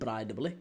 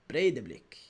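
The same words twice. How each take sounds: First: The name is said the way it is spelled. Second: The name is said with a more Icelandic sound. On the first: "certainly spelled Breidablik" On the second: "Sounds a bit more Icelandic"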